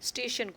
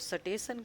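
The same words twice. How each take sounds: First: The word has its standard pronunciation. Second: The word has a regional colloquial pronunciation. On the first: "स्टेशन को" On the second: "कहते हैं"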